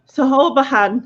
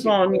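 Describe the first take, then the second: First: It is sounded out letter by letter. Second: It begins with an sh sound. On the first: The speaker calls it wrong. "I'd go Sahobahan" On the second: The speaker calls it right. "It's Siobhan"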